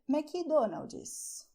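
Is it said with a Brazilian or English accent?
Brazilian. It is said Brazilian-style with added vowel sounds.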